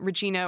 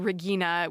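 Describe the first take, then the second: First: The name is pronounced the English way. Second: The name is pronounced the German way.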